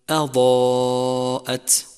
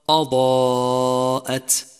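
First: The opening hamza is pronounced light and thin. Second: The opening hamza is pronounced heavy and emphatic. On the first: The speaker calls it right. "والصواب أن تقول أضاءت" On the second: The speaker calls it wrong. "ولتحذر من تفخيم الهمزة"

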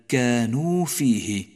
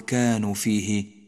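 First: The long final vowel of the first word is kept. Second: The long final vowel of the first word is dropped. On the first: The speaker calls it right. "بل كانوا فيه، وحاذر أن يسقط حرف الواو من لفظك" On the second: The speaker calls it wrong. "ولا تقل كانوا فيه"

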